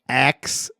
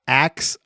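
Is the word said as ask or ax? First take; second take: ax; ax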